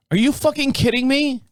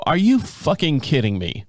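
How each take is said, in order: First: Much higher, incredulous "Are you fucking kidding me?"; the second "Are you fucking kidding me?" pitched way up in mock outrage; outraged disbelief. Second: Said in the usual way. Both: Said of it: "I open 'em up and I go".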